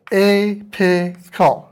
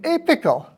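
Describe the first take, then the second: First: "apical" very slowly as "ay, pih, kal"; syllable by syllable. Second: Said in the usual way. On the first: Shown as a demonstration. Lecturer asking to pronounce apical in syllables, slow and separated. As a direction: break "apical" into three drawn-out, separate syllables. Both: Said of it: "pronounce apical in syllables".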